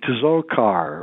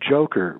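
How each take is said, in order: First: The name begins with a 'ts' sound. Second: The name begins with a 'j' sound. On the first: The speaker calls it wrong. "everybody's pronouncing it wrong. They're pronouncing it Tzokar" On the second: The speaker calls it right. "his name is pronounced Joker"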